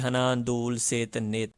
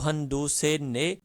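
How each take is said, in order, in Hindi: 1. चारों संख्या शब्द पूरे बोले जाते हैं। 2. चारों संख्या शब्द छोटे करके बोले जाते हैं। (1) "फिर तो हम बोलेंगे हनादूल सेत नेत" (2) "हन दू से ने ... शॉर्ट बोला जाता है"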